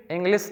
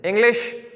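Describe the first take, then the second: First: इंग्लिश ending in a plain "s" sound, ɪŋɡlɪs; wrong English ending. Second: इंग्लिश ending in a clear "sh", ɪŋɡlɪʃ, slight rise; correct English ending. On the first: Teacher showing students the wrong sound, lightly lower. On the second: Teacher giving students the right sound, rising. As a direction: say इंग्लिश with a crisp "sh" at the end. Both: Shown as a demonstration. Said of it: "इंग्लिश नहीं".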